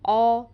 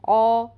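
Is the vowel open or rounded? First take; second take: rounded; rounded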